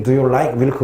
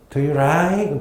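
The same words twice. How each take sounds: First: Said in the usual way. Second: "like" said as "rike", Thai English style; Thai English accent. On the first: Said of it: "우리는 ... 그러잖아". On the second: Shown as a demonstration. Teacher contrasting Korean and Thai English pronunciations, Thai English accent. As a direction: mimic Thai English "like" with an r sound. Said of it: "거긴".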